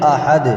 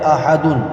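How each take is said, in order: First: The word ends on a bare d consonant. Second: The word ends with an extra un syllable. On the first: "जब हम आयत करेंगे तो पढ़ेंगे अहद" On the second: "असल में लिखा हुआ है अहदुन"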